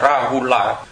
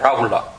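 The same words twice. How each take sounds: First: Each syllable is pressed out separately and clearly. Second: The syllables run together, the last one swallowed. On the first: "mình đọc mà mình dằn từng tiếng một ra thì là Rahula" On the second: "người ta đọc là Rahula"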